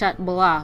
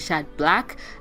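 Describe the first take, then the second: First: The second word does not sound like 'black'. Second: The second word sounds like English 'black'. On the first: The speaker calls it right. "I'm pronouncing it as Chat Blah" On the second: The speaker calls it wrong.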